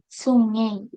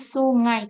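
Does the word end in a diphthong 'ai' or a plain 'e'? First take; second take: e; ai. First: The word ends with a plain 'e' vowel. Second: The word ends with the diphthong 'ai'. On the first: This shows Javanese interference. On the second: This is the standard form. "kan harusnya"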